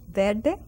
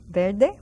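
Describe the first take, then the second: The two takes are said the same way.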